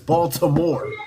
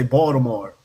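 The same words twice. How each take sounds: First: The name is said in a standard pronunciation. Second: The name is said in a local pronunciation. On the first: The speaker calls it right. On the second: The speaker calls it wrong. "I heard him say"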